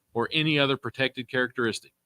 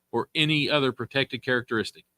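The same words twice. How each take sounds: No difference in how they are said.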